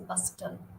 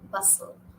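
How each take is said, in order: First: The T sound in the middle is pronounced. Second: The T sound in the middle is silent. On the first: The speaker calls it wrong. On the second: The speaker calls it right.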